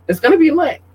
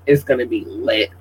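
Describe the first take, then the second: First: High, hyped-up squeal; excited. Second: Said in the usual way. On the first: Real, not acted. Hyping up her party.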